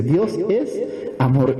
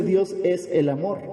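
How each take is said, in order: First: "es" drawn out before "amor"; slow down and hold "es", then land "amor"; stress on ES. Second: Said in the usual way. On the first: Shown as a demonstration. Preacher correcting a misquoted verse, lingering on "es". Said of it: "dice Dios es amor". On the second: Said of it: "No dice Dios es el amor".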